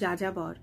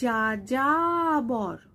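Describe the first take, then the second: First: The word is said casually with little mouth movement. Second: The word is said with exaggerated, wide mouth articulation. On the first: "এইভাবেই বলা যায় যেভাবে আমি বলছি" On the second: "স্পষ্ট আনতে গেলে মুখের বিকৃতি"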